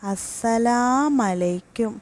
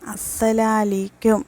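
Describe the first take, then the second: First: The final u of salamu is dropped. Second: The mu a sounds are dropped. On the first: May you be destroyed. "അതിൽ ആദ്യത്തേത് അസ്സലാമലൈക്കും" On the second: May shame be upon you. "മൂന്നാമത്തത് അസ്സലാലീക്കും"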